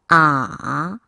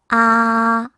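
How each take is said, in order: First: The syllable is said with the third tone. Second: The syllable is said with the first tone. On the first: "삼 성" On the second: "일 성"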